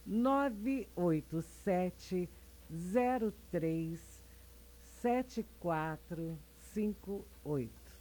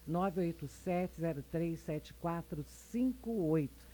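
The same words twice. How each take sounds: First: The number is said at a slow pace. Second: The number is said at a fast pace.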